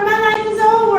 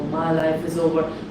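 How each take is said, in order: First: It is said in a silly, cartoonish comic voice. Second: It is said in a low, deep, heavy voice. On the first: The thought feels funny and harmless. "I can try to make it into a comic voice" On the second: The thought feels serious and crushing. "deep voice that's telling me my life is over"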